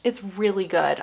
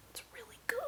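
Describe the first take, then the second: First: Said in the usual way. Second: Whispered, hushed rave; barely-there whisper of praise; excited whisper. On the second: Real, not acted. Excited aside about a book.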